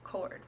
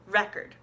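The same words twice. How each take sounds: First: The stress is on the second syllable. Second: The stress is on the first syllable. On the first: It is a verb. "the verb record has the accent on the O" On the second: It is a noun. "has the accent on the re"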